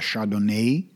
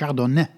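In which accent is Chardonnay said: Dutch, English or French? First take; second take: English; French. First: It is said the English way, drawn out. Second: It is said with a French pronunciation. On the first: "De Engelsen rekken dat woord nog wat uit" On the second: "gecorrigeerd door een Fransman die zegt: het is Chardonnay"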